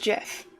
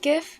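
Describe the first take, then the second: First: The word begins with a soft J sound. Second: The word begins with a hard G sound. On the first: "like the peanut butter" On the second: "G does stand for graphics"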